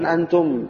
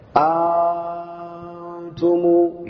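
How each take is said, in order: First: The opening vowel is short. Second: The opening vowel is drawn out long. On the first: This is not the reading used in this transmission. "tapi bukan antum ya" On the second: The second hamzah is replaced by a long alif. "maka menjadi panjang bacanya"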